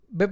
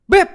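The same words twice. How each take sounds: First: It is said slowly and softly. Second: It is said sharply and harshly. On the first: This tone keeps the listener calm. The speaker calls it right. "Pelan pelan" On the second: This tone makes the listener cry. The speaker calls it wrong. "nggak bisa digalakin sama sekali"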